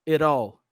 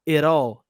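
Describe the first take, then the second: No difference in how they are said.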